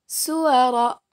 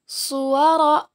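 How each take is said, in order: First: Suwara with a light, thin S; letter sin. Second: Suwara with a heavy emphatic S; letter sad. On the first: Teacher contrasts two letters for students, suwara with light S. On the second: Teacher contrasts two letters for students, Suwara with heavy S. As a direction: say Suwara slowly, thick rounded S. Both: Shown as a demonstration. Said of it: "Perbandingan antara huruf so dan huruf sa".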